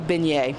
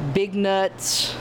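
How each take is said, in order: First: The word sounds like 'ben-yay'. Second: The word sounds like 'big nuts'. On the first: The speaker calls it right. "but it's really beignet" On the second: The speaker calls it wrong. "a lot of people say beignets, big nuts"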